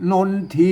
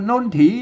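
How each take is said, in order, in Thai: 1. อ่านด้วยการออกเสียงแบบไทยมาตรฐาน 2. อ่านด้วยสำเนียงล้านนา (1) "คนทั่วไปมาอ่าน... มันจะผิดเพี้ยนสำเนียง" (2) "มันต้องอ่านว่านนถี"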